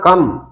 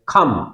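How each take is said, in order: First: The k sound is plain, without a puff of air. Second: The k sound has a strong puff of air. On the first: "तो कम ना बोले उसे" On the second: "खे बोल देते हैं"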